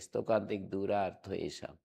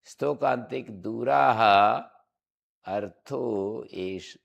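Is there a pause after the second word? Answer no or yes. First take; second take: no; yes. First: It is said softly without a pause after the second word. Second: A final h is sounded, then a short pause. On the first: The words are joined by sandhi. "हल्के मुख से धीरे से पढ़ना पड़ेगा" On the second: The words are kept apart without sandhi. "मैं विसर्ग बोलता हूं तो मुझे थोड़ा विराम देना पड़ेगा"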